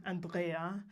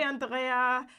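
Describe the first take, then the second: First: Andrea said the English way, AN-dree-uh; English pronunciation. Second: Andrea said the German way, an-DRAY-ah; German pronunciation. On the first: Shown as a demonstration. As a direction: correct Andrea to English, stress on the first syllable. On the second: Real, not acted. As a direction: say Andrea like a German would, stress on the middle. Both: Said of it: "I pronounced that very German".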